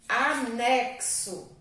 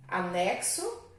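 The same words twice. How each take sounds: First: Anexo slow with x said as ks. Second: Said in the usual way. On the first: Shown as a demonstration. Teacher slowly saying Anexo to show x sounds like cs. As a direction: draw out Anexo stressing ks. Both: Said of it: "tem som de C S".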